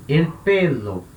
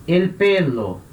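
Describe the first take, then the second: No difference in how they are said.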